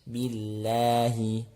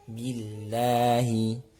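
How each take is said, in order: No difference in how they are said.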